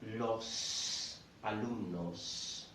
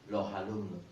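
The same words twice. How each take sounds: First: The S of los is clearly pronounced. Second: The S is dropped and an H sound links. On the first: "they wouldn't say los alumnos" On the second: "that sound there, I don't know if you notice it, that is the intrusive H"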